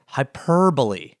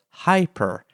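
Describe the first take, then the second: First: "hyperbole" with the punch on PER; hy-PER-bole, second syllable leaning out; stress on second syllable. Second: "hyper" with a slow, punched HY; HY-per, front-stressed and drawn out; stress on first syllable. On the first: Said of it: "not on the second, like hyperbole". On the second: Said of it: "have an emphasis on the first syllable". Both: Shown as a demonstration.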